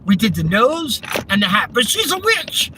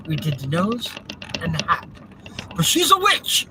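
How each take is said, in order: First: Ends high and sheepish; mock villager's sheepish confession; Monty Python villager quote. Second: Monty Python villager quote. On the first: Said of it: "Monty Python's Flying Circus". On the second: Retold or imitated. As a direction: squeal "witch" like a silly villager. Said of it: "that's from, Monty Python's Flying Circus".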